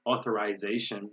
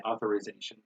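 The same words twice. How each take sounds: First: "Authorization" with -eye-ZAY-shun; British "Authorization", like author-eyes-ation; British pronunciation. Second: "authorization" with -ih-ZAY-shun; American "authorization", reduced vowel before z; American pronunciation. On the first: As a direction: say "Authorization" with long i before z. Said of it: "They say organization". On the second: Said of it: "We say authorization". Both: Shown as a demonstration.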